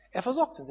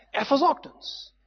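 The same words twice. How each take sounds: First: "Er versorgt uns" with a falling close on "versorgt"; a calm, falling confirmation that God provides; settled repeat. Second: Slow, high rising "Er versorgt uns"; slow, rising declaration that God provides; emphatic. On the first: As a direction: bring "versorgt" down to rest. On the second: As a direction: lift "versorgt" up and stretch it. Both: Real, not acted. Repeated for emphasis.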